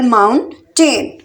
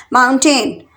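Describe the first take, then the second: First: mountain slowly in two separate beats; split into syllables. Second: Said in the usual way. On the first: Shown as a demonstration. Teacher counting out two syllables for learners, syllable by syllable. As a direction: pause between mount and टेन. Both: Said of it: "mountains में टू syllable".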